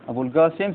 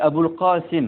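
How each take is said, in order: First: The name is said in Yemeni Arabic pronunciation. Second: The name is said in standard Arabic pronunciation.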